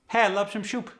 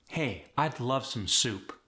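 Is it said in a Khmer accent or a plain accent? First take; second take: Khmer; plain. First: It is said in a Khmer accent. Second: It is said in a plain accent.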